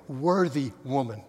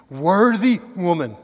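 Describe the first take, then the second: First: Said in the usual way. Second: Worthy woman slowed and much louder, Worthy punched; stress on Worthy woman. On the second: Shown as a demonstration. Preacher driving home Ruth's worth to the congregation, emphatic. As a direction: lean hard on Worthy, drawn out. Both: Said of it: "Do you see?".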